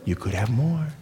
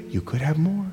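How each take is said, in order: First: Low, much softer, coaxing; seductive tempter. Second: Seductive tempter. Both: Acted. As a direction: lure them in quietly. Tempter repeats lure.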